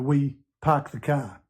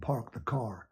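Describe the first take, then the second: First: The r sounds are dropped, non-rhotic accent. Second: The r sounds are pronounced, rhotic accent. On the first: "like people from Boston, we" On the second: "rather than"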